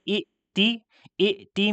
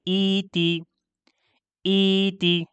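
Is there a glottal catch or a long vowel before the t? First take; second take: glottal catch; long vowel. First: A short vowel then a glottal catch before t. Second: A long ee vowel runs straight into t.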